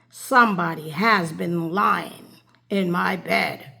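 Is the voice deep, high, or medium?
deep. It is said in a great big bear voice.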